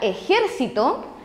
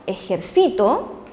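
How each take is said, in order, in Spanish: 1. La sílaba tónica es la segunda. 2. La sílaba tónica es la tercera. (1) "es una palabra esdrújula" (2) "yo cargo la voz en la sílaba sí"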